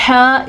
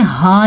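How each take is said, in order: First: हा breathed sharply from mid-throat; हा as Arabic pharyngeal h; throaty ha. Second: हा as everyday glottal h; wrong light ha. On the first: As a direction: tighten the throat for a strong हा. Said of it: "इस तरह पढ़ते हैं". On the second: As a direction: say हा lightly, without throat friction. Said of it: "हा नहीं पढ़ते इसको". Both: Shown as a demonstration.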